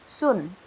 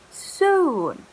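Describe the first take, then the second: First: The vowel is cut short. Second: The vowel is held long. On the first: The speaker calls it wrong. "not soon" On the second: The speaker calls it right. "you have to read it longer, like this"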